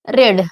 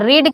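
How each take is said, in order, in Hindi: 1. स्वर छोटा है, 'red' जैसा। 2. स्वर लंबा है, 'reed' जैसा।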